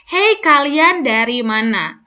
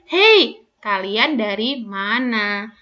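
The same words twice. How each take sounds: First: Slow, every word crisp; slow and clear. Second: "Hey" pitched high, "mana" dropped low. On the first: Teacher slows the line for clear articulation, deliberate. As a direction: spell out each word slowly. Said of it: "Apabila lambat". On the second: Teacher shows students intonation, high "Hey" then low "mana". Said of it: "Hey-nya tinggi". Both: Shown as a demonstration.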